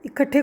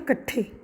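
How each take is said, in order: First: The word starts with an i vowel. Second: The opening i vowel is dropped. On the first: This is the standard Hindi form. "इकट्ठे को क्या बोलते?" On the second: This is the dialect form. "कहीं कहीं ई का लोप भी देखा जाता है।"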